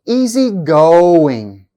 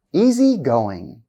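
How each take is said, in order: First: "Easygoing" slowly, "go" long and loud; held second-part stress. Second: Said in the usual way. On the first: Shown as a demonstration. Teacher showing compound adjective stress, held demo. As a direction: punch and hold the "go" in "Easygoing". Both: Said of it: "on the second part".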